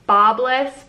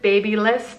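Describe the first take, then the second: First: The name begins with a short 'bob' sound. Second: The name begins with a long 'baby' sound. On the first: This is the pronunciation the speaker believes is correct. "I'm pretty sure it's pronounced bobless" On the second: This is a pronunciation the speaker has heard others use. "but I've heard babyless too"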